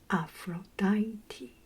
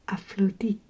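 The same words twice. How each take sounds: First: The name is pronounced the English way. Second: The name is pronounced the Greek way. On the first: "So in English is" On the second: "And in Greece, I think it's"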